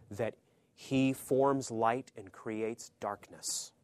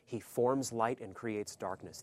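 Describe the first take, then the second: First: Very slow, each word laid down; slow and weighty. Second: Slow, with a firm stress on forms; slower restatement. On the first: Preacher slowing to let the verse land, very slow. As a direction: let the verse sink in slowly. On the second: Preacher repeating the verse for the congregation, slow and firm. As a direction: repeat it slowly and firmly. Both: Shown as a demonstration.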